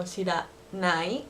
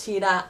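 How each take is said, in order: First: "shiranai" drawn out slowly with a rising end; slow standard form. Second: "shiran" cut short and quick; clipped Osaka form. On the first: Teacher contrasts standard "shiranai" with the Osaka form. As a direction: stretch out "shiranai" syllable by syllable. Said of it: "So instead of". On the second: Teacher gives learners the Osaka Ben "shiran". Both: Shown as a demonstration.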